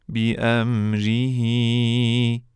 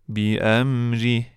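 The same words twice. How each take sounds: First: بی امریه recited slowly with the full ending "bi amrihi"; teacher chants بی امریه slowly, every vowel sounded. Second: بی امریه stopped on a silent "h", "bi amrih"; teacher recites بی امریه, cutting the final vowel; pausal form. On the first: Teacher recites the example for students, slow and in full. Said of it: "مانند کلمهٔ". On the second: Teacher shows students the stop form, final vowel dropped. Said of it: "که در هنگام وقف". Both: Shown as a demonstration.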